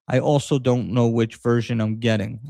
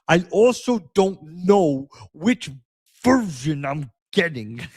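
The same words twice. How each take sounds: First: It is read in the speaker's ordinary voice. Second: It is read in an imitated, put-on voice.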